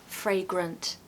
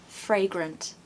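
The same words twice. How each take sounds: No difference in how they are said.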